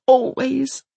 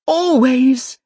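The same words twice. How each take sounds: First: Defiant. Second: Always, punched loud and defiant; defiant, louder always. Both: Acted. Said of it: "with unshakable defiance".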